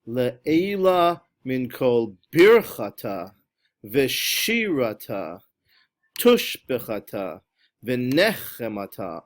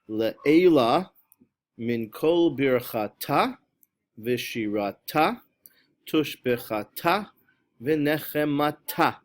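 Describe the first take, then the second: First: The stress falls on the first syllable. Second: The stress falls on the last syllable. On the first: The speaker calls it wrong. "on the first syllable, try to make that disappear" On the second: The speaker calls it right. "the correct pronunciation is on the last syllable"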